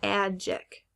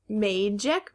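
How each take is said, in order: First: "magic" slowly as MAD-jik; short A. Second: "magic" as MAY-jik, rising; long A. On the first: Teacher offering the other option, "magic" as mad-jik. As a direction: say "magic" with the a of cat. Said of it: "Now, is it". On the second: Teacher quizzing students on a word, "magic" as may-jik. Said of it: "if the A is at the end". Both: Shown as a demonstration.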